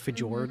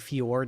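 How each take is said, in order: First: The j is pronounced like a j sound. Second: The j is pronounced like a y sound. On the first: The speaker calls it wrong. "instead of fjord" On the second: The speaker calls it right. "J's are like Y's. That's why I say fjord"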